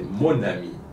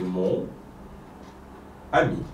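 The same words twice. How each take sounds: First: The n sound links straight into the next word. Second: The two words are said separately without linking. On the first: "Mais quand on le prononce" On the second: "quand on prononce des mots comme mon ami"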